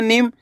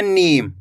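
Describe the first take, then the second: First: नीम said fast with a short i; quick short vowel. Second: नीम with a long, held ee; drawn-out vowel. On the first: Teacher shows the short-i reading, नीम said quickly. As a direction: snap through नीम as "nim". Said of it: "तेजी के साथ उच्चारण निकालना है". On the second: Teacher shows the long-ee reading, नीम stretched. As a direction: draw out the ee in नीम. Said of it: "यहाँ पे खींच के करना है". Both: Shown as a demonstration.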